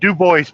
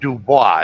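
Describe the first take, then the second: First: It is said with an Americanized pronunciation. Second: It is said with a French pronunciation. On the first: This is how locals say it. The speaker calls it wrong. "they call it" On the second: This is the original form of the name. The speaker calls it right. "It's actually Dubois. It's French"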